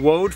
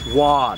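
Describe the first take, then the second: First: The name has an 'oh' vowel. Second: The name has an 'ah' vowel. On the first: The speaker calls it wrong. "I've been saying Woad for about twenty years" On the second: The speaker calls it right. "long ago pronounced it Wad"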